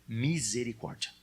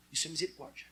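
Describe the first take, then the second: First: Misericórdia drawn out slowly, every syllable stretched. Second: Said in the usual way. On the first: Shown as a demonstration. Pastor has the congregation repeat misericórdia, slowly and drawn out. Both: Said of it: "fala comigo devagarinho".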